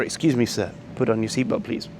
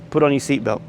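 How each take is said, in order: First: Softly courteous, unhurried asking; polite request. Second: Blunt, flat command with no please; curt order. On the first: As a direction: gently ask with excuse me and please. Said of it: "You know, or". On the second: Rude flight attendant telling a passenger, curt and blunt. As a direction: bark it out like a mild mock order. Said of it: "Here, this was just". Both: Retold or imitated.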